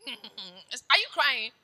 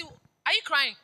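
First: Very slow, every word stretched; slow drawn-out question. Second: Said in the usual way. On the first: Retold or imitated. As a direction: drag the question out in disbelief.

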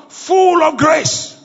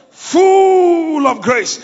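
First: Full drawn out and stressed; slow, stressed on full. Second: Full stretched very slowly, louder; very slow, emphatic. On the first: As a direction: lean on full, slowly. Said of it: "repeated slower". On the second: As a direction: draw out Full of grace at a crawl. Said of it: "repeated even slower". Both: Acted.

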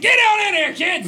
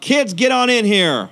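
First: Put-on high, loud shout to the kids; loud yell. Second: Put-on slow, high call to the kids; yell to the kids. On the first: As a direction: bellow it through the door. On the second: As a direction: call them in, drawn out. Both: Shown as a demonstration. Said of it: "you have to yell real loud".

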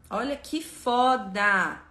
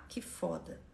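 First: Stretched out, louder, savoring foda; slow awed emphasis. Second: Much softer, lower murmured "que foda"; hushed echo. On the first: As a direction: drag out "Olha que foda" in slow wonder. Awed at the lesson text. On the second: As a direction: echo it to yourself under your breath. Awed echo of own words. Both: Real, not acted.

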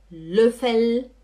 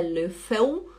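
First: Löffel with a held final L; correct final L. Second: Löffel as "lö-feu", rising; wrong final L. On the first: Teacher giving students the right form, clear L. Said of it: "é Gabel". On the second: Teacher listing errors for the class, L as U. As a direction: end Löffel in U instead of L. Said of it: "e não U". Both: Shown as a demonstration.

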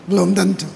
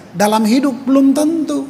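First: Said in the usual way. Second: "belum" pitched higher and pressed, "tentu" falling away; emphatic stress. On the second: Shown as a demonstration. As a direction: lean hard into "belum".

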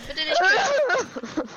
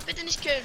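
First: Slow loud high whining plea; drawn-out pleading. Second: Higher pleading plea. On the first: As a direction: stretch out the begging, louder. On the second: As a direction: beg quickly not to be killed. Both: Real, not acted. Begging not to be killed.

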